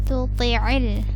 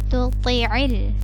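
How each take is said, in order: Both takes have the same delivery.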